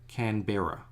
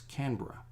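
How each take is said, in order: First: Every syllable is said fully, following the spelling. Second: The syllables are run together into one quick word. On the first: "it's spelled Canberra" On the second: "we just put that all in one"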